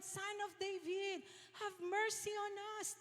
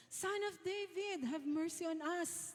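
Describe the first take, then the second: First: High, thin mock shout held at normal volume; more insistent imitated cry. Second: High-pitched mock shout at no extra volume; imitated cry out. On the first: Hushed blind men call Jesus all the more, imitated cry. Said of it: "pero the more, talagang sabi nila". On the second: Two blind men call to passing Jesus, imitated cry. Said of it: "Tapos sumigaw sila".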